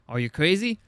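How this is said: It is said in a put-on Australian accent. The speaker calls it right.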